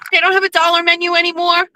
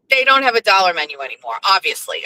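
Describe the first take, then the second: First: Higher, fast mocking echo; mock Jeff. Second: Said in the usual way. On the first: Mocking her husband's dollar-menu idea, high and quick. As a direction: parrot him in a high, quick voice.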